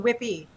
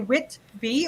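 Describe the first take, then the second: First: The T sound is dropped. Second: The T sound is clearly pronounced. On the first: "We don't say the T" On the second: "do you say the T"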